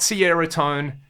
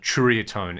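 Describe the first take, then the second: First: The name begins with an s sound. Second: The name begins with a ch sound. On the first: "it's not Sierra tone" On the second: "there is that kind of Churia tone in there"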